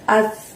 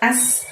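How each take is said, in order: First: The consonant is thin, tongue tip at upper teeth. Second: The consonant is a hiss, not against the teeth. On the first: The speaker calls it right. "tipis, ... ujung lidah kamu dorong ke gigi atas" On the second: The speaker calls it wrong. "bukan as"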